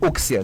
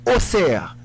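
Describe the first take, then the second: First: The middle consonant is said as ks. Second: The middle consonant is said as ss. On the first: The speaker calls it wrong. "il pas dit Auxerre" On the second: The speaker calls it right. "c'est Bruxelles Auxerre"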